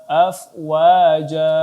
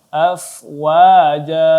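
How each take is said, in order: Both takes have the same delivery.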